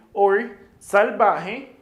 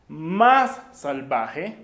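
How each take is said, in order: First: "salvaje" drawn out slowly and loud; slow emphatic model. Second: "más salvaje" very slow with "más" pushed loud; stress on MÁS. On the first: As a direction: stretch out "salvaje" for learners. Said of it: "teacher drills word". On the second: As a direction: lean hard on "más" in "más salvaje". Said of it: "teacher drills comparative". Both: Shown as a demonstration.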